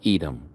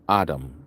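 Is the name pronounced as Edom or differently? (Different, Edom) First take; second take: Edom; different. First: The name is pronounced as Edom. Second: The name is not pronounced as Edom.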